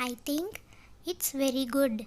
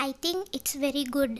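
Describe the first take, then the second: First: "I think" rising, a gap, then "it's very good"; pause after THINK. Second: Said in the usual way. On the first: Shown as a demonstration. English teacher repeats the sentence for learners, pausing after "think".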